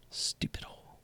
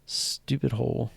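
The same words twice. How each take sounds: First: Unvoiced, muttered stupid hole; whispered. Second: Said in the usual way. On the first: Real, not acted. Streamer cursing the losing trade hole, whispered. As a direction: hiss it under your breath.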